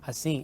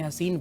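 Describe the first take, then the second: First: The word ends with a nasalized vowel, no n. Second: The word ends with a full n consonant. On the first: The speaker calls it right. "ये नून नहीं है, नून गुन्ना है।" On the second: The speaker calls it wrong. "आपने हसीन पढ़ा।"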